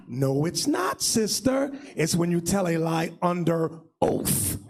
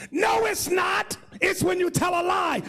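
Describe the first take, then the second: First: Low, measured rebuttal; deep, deliberate comeback; firm correction. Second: High emphatic retort; mock indignant correction; sister objecting. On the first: Retold or imitated. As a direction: correct patiently in a lower voice. Firm low reply correcting the sister. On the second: Sister's objection in retold exchange.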